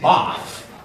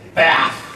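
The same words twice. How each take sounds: First: It is said with a British accent. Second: It is said with an American accent. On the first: "In England, they say bath" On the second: "In America, they say bath. I hate the American sound"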